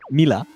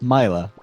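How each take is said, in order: First: The name is pronounced the French way. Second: The name is pronounced the English way. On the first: "In French" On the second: "but in English"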